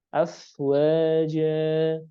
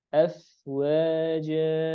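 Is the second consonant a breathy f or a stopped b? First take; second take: breathy f; breathy f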